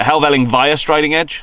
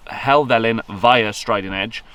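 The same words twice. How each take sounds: First: "Helvellyn via Striding Edge?" asked with a rising, unsure tune; unsure rising question. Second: "Helvellyn via Striding Edge" said slowly and firmly as a statement; confident statement. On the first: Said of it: "what do you call it?". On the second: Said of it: "Is that the right way?". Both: Shown as a demonstration.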